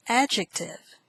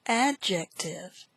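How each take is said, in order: First: Said in the usual way. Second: "Adjective" slowly parted as ad-jec-tive; syllable by syllable. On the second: Shown as a demonstration. Teacher models word five, "Adjective" in slow syllables. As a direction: say "Adjective" slowly, each syllable set apart.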